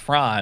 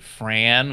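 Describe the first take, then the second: First: The vowel is a non-Midwestern A. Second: The vowel is a Midwestern-accented A. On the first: "don't do a Midwestern A" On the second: "with like a Midwestern A"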